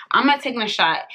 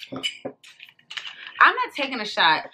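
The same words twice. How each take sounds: First: Said in the usual way. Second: Slow, softer, stretched "I'm not taking a shot"; slow and deliberate, NOT stressed; slow firm refusal. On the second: Real, not acted. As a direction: drag out each word, "not" leaned on.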